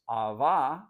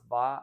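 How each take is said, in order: First: The word starts with an initial vowel. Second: The initial vowel is dropped entirely.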